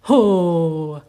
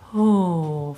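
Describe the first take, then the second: First: It starts with a loud push. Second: It starts very softly and breathily.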